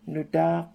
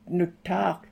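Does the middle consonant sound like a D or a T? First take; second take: D; T. First: The middle consonant sounds like a D. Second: The middle consonant is a clear T sound. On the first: The speaker calls it right. "but it's Nudak" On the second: The speaker calls it wrong. "If we said it like that, we'd say Nutak"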